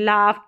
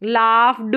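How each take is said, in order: First: The word ends with a t sound. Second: The word ends with a d sound. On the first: The speaker calls it right. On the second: The speaker calls it wrong.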